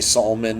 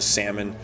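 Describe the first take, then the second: First: The L is sounded, giving extra syllables. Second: The L is silent, giving two syllables. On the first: The speaker calls it wrong. "I would say Solomon, and no one would correct me" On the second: The speaker calls it right. "correct me to to salmon"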